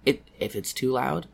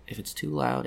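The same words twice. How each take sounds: First: The phrase is said loudly. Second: The phrase is said quietly. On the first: The speaker calls it wrong. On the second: The speaker calls it right.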